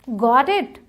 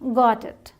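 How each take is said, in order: First: The voice rises at the end, like a question. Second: The voice falls at the end, like a statement. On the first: The speaker asks whether the listener understood. "ये got it वहाँ question है" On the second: The speaker says they have understood. "यहाँ पर ये normal statement हो गया"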